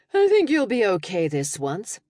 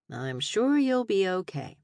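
First: Dry tired brush-off, THINK lifted. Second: Slow, dry, falling on sure; deadpan it, leaning on sure. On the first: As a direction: shrug it off, rising on think. Tired reply to teasing friend. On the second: Dry reply to mock grief. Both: Acted.

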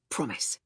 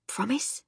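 First: Low, soft assurance, falling; quiet promise. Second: Soft whispered question, rising; quietly. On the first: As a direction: answer her in a hushed low voice. Answers her quiet question in kind. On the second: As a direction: ask it in a hushed, hopeful lift. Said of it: "she said quietly". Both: A narrator's reading.

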